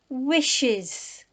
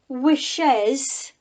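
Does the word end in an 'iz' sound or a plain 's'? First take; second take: iz; plain s. First: The word ends in an extra iz syllable. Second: The word ends in a plain s sound. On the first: The speaker calls it right. "So it's an is on the end" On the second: The speaker calls it wrong. "We don't say"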